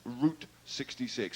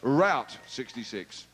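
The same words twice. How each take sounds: First: It is said with an English pronunciation. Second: It is said with an American pronunciation.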